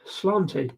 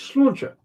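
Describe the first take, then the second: First: The word ends with a plain 'tee' sound. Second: The word ends with a 'cher' sound. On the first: The speaker calls it wrong. "if you want to pronounce it incorrectly" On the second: The speaker calls it right. "but it's Slauncher, apparently"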